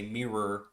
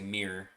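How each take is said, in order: First: It is said with two full syllables. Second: It is squeezed into one syllable, Chicago style.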